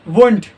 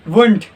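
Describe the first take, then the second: Both takes have the same delivery.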